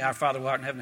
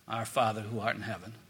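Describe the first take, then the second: First: It is recited in a flat, mechanical way. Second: It is said with deep, heartfelt emotion. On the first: The words are memorized and not truly meant. The speaker calls it wrong. "when we're just saying it from our head" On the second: The words are sincerely meant. The speaker calls it right. "You pray that from your heart"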